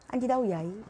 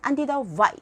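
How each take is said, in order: First: The last word starts with a y-like glide. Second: The last word keeps its initial v-like sound. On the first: "안디다우 야이 그래요" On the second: "원래는 안디다우 Y 이래야 되는데"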